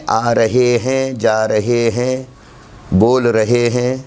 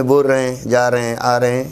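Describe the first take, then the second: First: "رہے ہیں" in full, every h sounded: "ra-he hain"; full written-form pronunciation. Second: "رہے ہیں" shortened to "ra-en", h dropped; spoken contracted pronunciation. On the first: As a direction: spell out each syllable of "رہے ہیں". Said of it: "لکھت میں". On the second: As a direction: run "رہے ہیں" together as in everyday speech. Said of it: "اور ادائیگی میں". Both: Shown as a demonstration.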